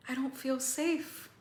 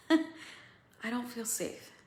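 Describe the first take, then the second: First: Pitched up with alarm; a frightened cry, pitched up; higher, scared voice. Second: Slow and choked up; real tears close, drawn out; slow, near tears. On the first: Acted. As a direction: say it high and frightened. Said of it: "to, "Holy shit". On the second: Real, not acted. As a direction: let it land slowly, close to crying. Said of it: "I'm gonna cry".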